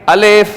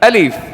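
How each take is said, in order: First: The second vowel sounds like 'eh'. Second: The second vowel sounds like 'ee'. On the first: The speaker calls it wrong. "लोग क्या गलती करते हैं? अलेफ अलेफ अलेफ नहीं" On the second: The speaker calls it right.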